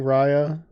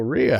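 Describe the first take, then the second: First: The first vowel sounds like long I. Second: The first vowel sounds like E. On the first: "Long I" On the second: "or E"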